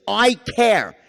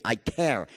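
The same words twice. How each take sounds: First: The caring line, said a little louder; a firm, open "I care"; I care tonality. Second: An empathetic near-murmur; soft I care. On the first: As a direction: project the care plainly. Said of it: "So this first thing". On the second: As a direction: lower and softer, full of sympathy. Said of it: "I'm empathy, sympathy". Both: Shown as a demonstration.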